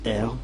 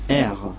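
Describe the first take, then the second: First: "R" with a clearly rolled r; well-rolled R. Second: Said in the usual way. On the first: Shown as a demonstration. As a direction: roll the r firmly in the letter name "R". (« R » bien roulé) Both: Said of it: "mais bien roulé".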